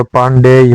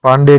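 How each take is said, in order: First: पांडेय with a final y glide; correct form. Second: पांडे ending in a plain e; wrong form. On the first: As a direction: sound the य ending of पांडेय. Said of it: "होता है". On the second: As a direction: say पांडे with no final y glide. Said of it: "नहीं होता". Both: Shown as a demonstration.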